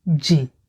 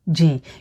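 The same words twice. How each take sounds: First: The word is cut short to one syllable, jìn. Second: The word is cut short to one syllable, jìn.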